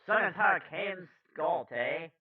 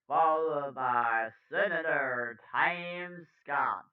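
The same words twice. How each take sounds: First: High-pitched attempt at Brooklyn, landing on Canadian; botched Brooklyn accent. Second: Put-on news read with a New York accent; slightly New York-sounding anchor. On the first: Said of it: "I tried to do Brooklyn". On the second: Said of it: "I have the New York accent".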